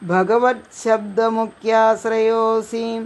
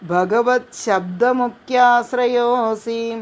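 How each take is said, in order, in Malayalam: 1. വാക്കുകൾ ഒന്നിച്ചുചേർത്ത് ഒരു വാക്കായി പറയുന്നു. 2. വാക്കുകൾ ഒന്നിച്ചുചേർത്ത് ഒരു വാക്കായി പറയുന്നു.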